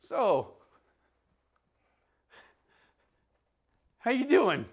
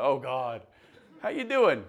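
First: Loud, much higher, startled-sounding "how you doing"; awkward opening line. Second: "how you doing" said laughing, much higher and louder; laughing retelling. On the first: Preacher to congregation, replaying his awkward greeting, loud and high. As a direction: blurt out a clumsy greeting at a patient. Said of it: "this was my opening line". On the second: Preacher retelling his awkward greeting to Gail, laughing through it. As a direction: laugh through the clumsy line as you repeat it. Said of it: "that's how I feel right now". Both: Retold or imitated.

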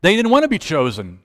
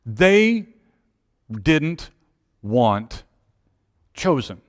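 First: Said in the usual way. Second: "They... didn't... want... chosen", each word set apart; long pause after each word, falling to "chosen". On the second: Real, not acted. Preacher landing the point on "chosen", word by word with pauses.

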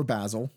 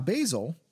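First: Basil said BAZ-ul; first vowel of Basil as in "cat"; short-A pronunciation. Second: Basil said BAY-zul; first vowel of Basil as in "day"; long-A pronunciation. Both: Shown as a demonstration. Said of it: "depending on how you pronounce it".

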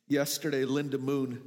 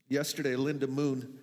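The two takes are said the same way.

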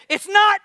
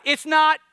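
First: High loud snap back, much higher; indignant shouted denial; defensive shout. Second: High loud call for the crowd to echo; loud call to repeat; shout it louder. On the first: Retold or imitated. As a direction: fire it back at your wife in a shout. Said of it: "Immediately I said". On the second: Shown as a demonstration. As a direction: belt it out for the congregation. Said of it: "Y'all can do better than that".

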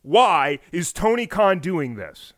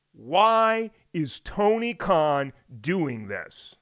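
First: Said in the usual way. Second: Very slow, weighty repeat of the question; slow dramatic question. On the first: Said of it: "You feel that?". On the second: Shown as a demonstration. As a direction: let each word hang, slowly. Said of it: "Did you feel that when I asked the question?".

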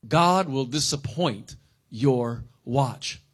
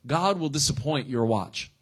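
First: Slow, deliberate dictation pace; slow repeat for notes. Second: Said in the usual way. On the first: Shown as a demonstration. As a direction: repeat it slowly so they can write it down. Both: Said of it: "write this down if you're taking notes".

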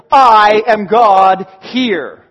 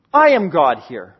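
First: Very loud, very slow proclamation; slow, loud, every word weighted; booming God. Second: Lower, firm restatement; steady, grounded repeat; low echo. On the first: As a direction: thunder it out as God. God's climactic claim. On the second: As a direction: let it settle low. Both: Acted.

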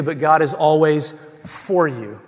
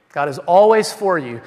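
First: Said in the usual way. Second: "always" lifted and punched louder; stress on always. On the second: Shown as a demonstration. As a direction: lean hard on "always" in "God is always for you".

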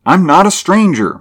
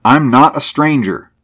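First: Much higher, louder insistence; insistent repeat. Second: Higher, louder, emphatic denial; exclaimed protest. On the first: Driver repeats his claim to the bearded man, high and insistent. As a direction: repeat it with voice pitched right up. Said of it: "Mulvaney repeated". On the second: Driver tells armed men he belongs, exclaimed protest. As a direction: protest firmly with a raised voice. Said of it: "he exclaimed". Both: A narrator's reading.

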